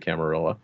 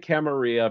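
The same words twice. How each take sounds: First: The double L is said like an L. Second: The double L is said like a Y. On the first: The speaker is a modern American. "American sort of one" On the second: The word is treated as Spanish. "it's pronounced like tortilla"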